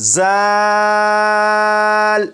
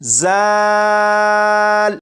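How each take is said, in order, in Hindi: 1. इस व्यंजन में तेज़ सीटी जैसी सिसकी है। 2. इस व्यंजन में तेज़ सीटी जैसी सिसकी है।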